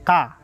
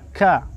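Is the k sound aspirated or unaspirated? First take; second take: unaspirated; aspirated. First: The k is released with no breath. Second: The k is released with a puff of breath. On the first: The speaker calls it wrong. "bukan ka" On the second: The speaker calls it right. "Wakila ka"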